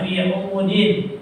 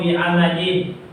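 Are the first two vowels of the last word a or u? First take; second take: u; a. First: The first two vowels of the word are u. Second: The first two vowels of the word are a.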